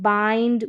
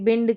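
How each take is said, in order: First: The vowel sounds like 'eye'. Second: The vowel sounds like 'in'. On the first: The speaker calls it right. "आई का sound आई करके होता है" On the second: The speaker calls it wrong. "ऐसे नहीं पढ़ते हैं"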